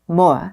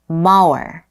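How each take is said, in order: First: It is said British-style, short, with the R dropped. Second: It is said with a pronounced R sound.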